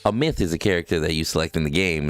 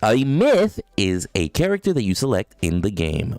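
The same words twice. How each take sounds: First: It is read flatly with little pitch movement. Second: It is read with lively, varied pitch. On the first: The speaker calls it wrong. "instead of saying" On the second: The speaker calls it right. "you have to fluctuate your voice"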